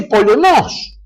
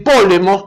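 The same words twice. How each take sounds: First: "polemos" very slow, higher, in a put-on voice, mocking the wrong stress; mock mispronunciation. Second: "polemos" said the proper Greek way, plainly; "polemos" as a classicist says it; correct Greek stress. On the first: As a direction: stretch "polemos" out high and pompous with the wrong stress. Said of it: "dice polemos". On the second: Shown as a demonstration. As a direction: give "polemos" its correct stress, matter-of-fact. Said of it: "en lugar de decir polemos".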